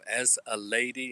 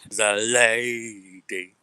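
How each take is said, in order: First: It is said in his ordinary speaking voice. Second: It is said in an exaggerated character voice.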